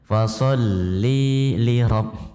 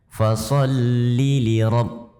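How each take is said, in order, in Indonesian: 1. Vokal dibaca panjang dengan tambahan panjang. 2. Vokal dibaca pendek tanpa tambahan panjang. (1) "Ini idkhal, memasukkan mat yang bukan pada tempatnya" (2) "Seharusnya seperti itu"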